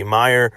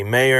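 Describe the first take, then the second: First: Meyer said MY-er, first syllable like my; MY-er pronunciation. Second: Mayer said MAY-er, first syllable like may; MAY-er pronunciation. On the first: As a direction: Meyer with a long I, MY-er. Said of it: "it might be Meyer". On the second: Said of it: "it might be Mayer". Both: Shown as a demonstration.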